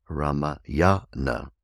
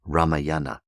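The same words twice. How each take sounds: First: Ramayana slowly, with the stress on the third syllable from the end; Sanskrit stress. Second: Ramayana with the stress on the second syllable from the end; wrong English stress. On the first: Teacher gives the correct Sanskrit stress slowly. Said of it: "It's the third from the end". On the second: Teacher mimics the common English mispronunciation. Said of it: "very often mispronounced by English speakers". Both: Shown as a demonstration.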